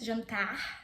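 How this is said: It is said in a Carioca Brazilian accent. "you can have the carioca accent"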